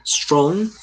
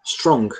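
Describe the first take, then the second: First: Strong said with a rising tune, like a question; Strong with an upward lilt. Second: Strong said with a falling tune, final g barely heard; strong settled down firmly. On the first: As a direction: lift the pitch at the end of Strong. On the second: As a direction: drop the pitch on strong and swallow the g. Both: Shown as a demonstration. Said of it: "a última sílaba ela nem sai".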